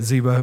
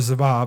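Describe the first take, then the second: First: The name is said the English way. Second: The name is said the Hebrew way. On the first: "but we say it Ziba" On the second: "depending in Hebrew, it would be more Ziba"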